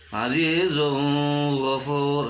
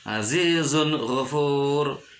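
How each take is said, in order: First: The n sound is blurred into what follows. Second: The n sound is pronounced distinctly. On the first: The speaker calls it wrong. "tidak boleh dibaca, salah" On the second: The speaker calls it right. "harus jelas"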